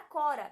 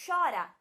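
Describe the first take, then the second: First: "cora" starting with a hard k; hard C sound. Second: "chora" starting with a hushing sh; CH sound. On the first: Teacher gives the word before H, "cora" with a hard k. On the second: Teacher gives the word after H, "chora" with a sh sound. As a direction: say "chora" with CH as sh, stressed. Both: Shown as a demonstration. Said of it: "Ele mudou o som da palavra".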